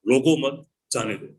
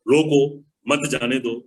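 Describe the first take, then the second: First: रोको मत run together, pause, then जाने दो; pause after मत. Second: रोको punched alone, pause, then मत जाने दो; pause after रोको. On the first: Teacher showing the opposite meaning, pause after मत. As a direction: break after मत, let जाने दो follow apart. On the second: Teacher showing where the comma goes, pause after रोको. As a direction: break after रोको, keep मत जाने दो together. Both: Shown as a demonstration. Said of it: "जहां coma लगाना चाहो".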